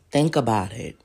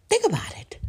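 First: Low emphatic. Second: Whispered. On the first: Urging viewers to think, Think about it low and firm. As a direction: Think about it said much lower and louder. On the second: Urging viewers to think, Think about it whispered. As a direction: Think whispered higher, breathy and pointed. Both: Shown as a demonstration.

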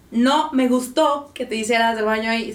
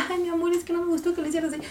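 First: Louder, firm disapproving tone; stern firm voice. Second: Higher, fast sugary scolding; sweet scolding. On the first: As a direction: tell the dog off firmly. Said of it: "pones la voz así de". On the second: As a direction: scold the dog sweetly, as if praising. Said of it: "la diferencia de fonéticamente". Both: Shown as a demonstration.

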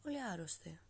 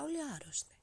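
First: Said in the usual way. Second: High, dramatic "όλοι άρρωστοι" with "όλοι" jumping up and falling; dramatic exclaim. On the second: Real, not acted. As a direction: announce "όλοι" high like shocking news.

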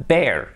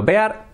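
First: Said in the usual way. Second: "bear" read as Spanish "be-ar", rising; spelling pronunciation. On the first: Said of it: "No difference". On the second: Shown as a demonstration. Teacher comparing homophones for learners, "bear" as a rising "be-ar". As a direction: sound "bear" as written, e then a. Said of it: "escrito bear".

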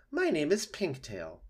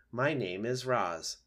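First: Lightly voiced, lilting opossum; a hint of theatrical friendliness; friendly opossum. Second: Slow, measured robot; lightly voiced robot, each word placed evenly; polite robot. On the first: Opossum introducing itself to robot, lightly lilting. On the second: Robot introducing itself to opossum, slow and measured.

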